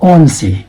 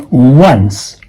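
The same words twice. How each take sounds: First: ONCE said as "on-see"; wrong spelling pronunciation. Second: ONCE said as "wunss", drawn out; slow, careful "wunss" for ONCE; correct ONCE. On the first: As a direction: read ONCE as ON plus the letter C. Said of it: "this is not on C". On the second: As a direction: start ONCE with a W sound. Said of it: "No, this is once". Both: Shown as a demonstration.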